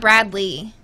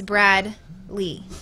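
First: The name runs together as one word. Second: The name is split into two separate words. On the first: The speaker calls it wrong. "It's not one word. It's not Bradley" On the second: The speaker calls it right. "It's Brad Lee"

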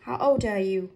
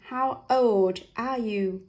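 First: The d of old runs into are. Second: The d of old is kept separate from are. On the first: The speaker calls it right. "Và đọc nối âm nó sẽ trôi chảy hơn này" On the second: The speaker calls it wrong. "Nếu không nối âm sẽ là"

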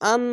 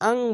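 First: The n is plain, with no nasal hum. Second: The n is hidden into a nasal ng sound. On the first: The speaker calls it wrong. "আন বলবেন না" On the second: The speaker calls it right. "এখানে আং বলতে হবে"

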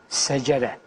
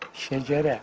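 First: The word begins with a plain s sound. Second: The word begins with an sh sound. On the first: The speaker calls it wrong. "Şecere yerine secere dedikleri gibi" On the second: The speaker calls it right. "Ya kardeşim secere olur mu vatandaş, yapma ya"

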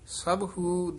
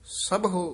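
First: The word ends with an 'oo' vowel. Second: The word ends with an 'o' vowel. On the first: The speaker calls it wrong. "ਸਭੂ ਦਲੈਂਕੜ ਨਹੀਂ ਲਾਉਣੇ" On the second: The speaker calls it right. "ਸਭੋ ਬੋਲਣਾ ਹੈ"

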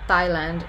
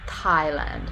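First: It begins with a tongue-on-teeth 't' and no puff of air. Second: It begins with a tongue-on-teeth 't' and a puff of air. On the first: "Thailand is without any aspiration" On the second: "that is a dental stop. So it's not a dental fricative, it's a dental stop, and it's aspirated"

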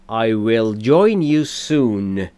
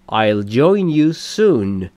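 First: 'I will' is said as two full words. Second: 'I will' is shortened to one syllable.

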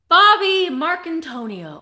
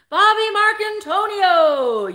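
First: The name is said in her ordinary voice. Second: The name is said in an announcer voice.

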